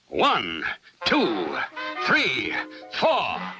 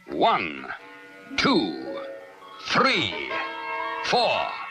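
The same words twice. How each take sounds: First: The count is spoken quickly. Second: The count is spoken slowly.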